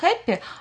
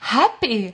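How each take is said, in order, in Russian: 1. Произносится с иностранным, не носительским произношением. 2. Произносится с естественным английским произношением, как у носителя. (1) "ты неправильно говоришь. Ты говоришь happy" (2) "а надо говорить happy"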